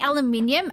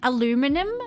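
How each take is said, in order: First: It is said the non-American way, with five syllables. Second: It is said the American way, with four syllables.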